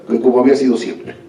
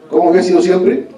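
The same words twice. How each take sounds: First: Said in the usual way. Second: "había" lifted high with a rising question tune; rhetorical question. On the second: Shown as a demonstration. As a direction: ask "¿Cómo había sido siempre?" to the audience, higher and rising.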